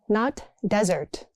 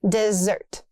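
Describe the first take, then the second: First: The stress is on the first syllable. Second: The stress is on the second syllable. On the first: The speaker calls it wrong. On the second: The speaker calls it right. "Double S means stress"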